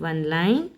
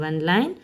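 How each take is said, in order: No difference in how they are said.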